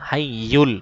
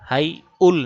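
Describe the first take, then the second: First: The middle y sound is doubled and firm. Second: The middle y sound is weak and short. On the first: The speaker calls it right. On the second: The speaker calls it wrong. "হাইউল না"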